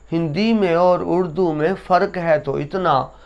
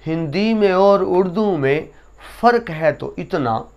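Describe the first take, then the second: No difference in how they are said.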